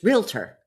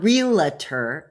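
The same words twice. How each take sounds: First: It is said as spelled, with two syllables. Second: It is said with an extra middle syllable. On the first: The speaker calls it right. "it's realtor. Look at how it's spelled" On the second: The speaker calls it wrong. "It's not realtor"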